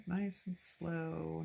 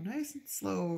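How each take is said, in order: First: Slow, careful nice and slow; a slow soothing self-coach. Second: Said in the usual way. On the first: Shown as a demonstration. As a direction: ease through the words like steadying a knife.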